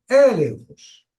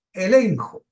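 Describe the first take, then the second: First: "elenjos" with the first E stressed, drawn out; "elenjos" slow, high first syllable, falling after. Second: Said in the usual way. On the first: Shown as a demonstration. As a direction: hit the opening E of "elenjos", then fall away. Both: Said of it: "con acento en la E".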